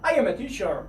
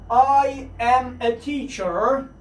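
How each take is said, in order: First: Said in the usual way. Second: Slow, careful full form I am; drawn out full form, each word clear. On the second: Shown as a demonstration. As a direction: spell out I am slowly. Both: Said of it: "باید شما اینها رو حتماً بدونید".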